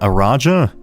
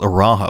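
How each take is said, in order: First: The J is said as a hard j sound. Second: The J is said as a soft, breathy h. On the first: This is probably the proper pronunciation. "but it's probably Ar Araja" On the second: This is how the speaker has been saying it. "I pronounce this as Araha"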